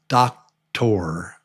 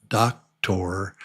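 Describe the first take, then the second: Both takes have the same delivery.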